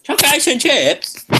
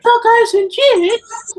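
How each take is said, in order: First: Put-on higher, slow childish voice; little kid voice again. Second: Put-on much higher, slow little kid's voice. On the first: Repeating the kid's TV line, higher and slow. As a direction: drawl it like a small child. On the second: Imitating the kid from the TV show, high and slow. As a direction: squeak it out slowly like a small child.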